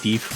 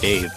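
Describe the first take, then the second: First: The vowel rhymes with 'leaf', an 'ee' sound. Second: The vowel is an 'ay' sound, like 'day'. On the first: The speaker calls it wrong. "make the uh, Leaf Deef rhyme" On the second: The speaker calls it right. "I have been informed that it's pronounced Dave"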